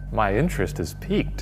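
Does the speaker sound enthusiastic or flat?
enthusiastic. It is said with exaggerated, lively interest.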